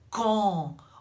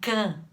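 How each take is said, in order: First: The vowel is rounded and closed. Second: The vowel is open and unrounded. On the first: The speaker calls it right. "pronunciado dessa forma, redondinho" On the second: The speaker calls it wrong. "Não dá pra falar assim"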